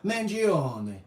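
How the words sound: The name is said with an Italian pronunciation. The name keeps its original heritage. The speaker calls it right. "if they're being true to their heritage, they're going to say Mangione"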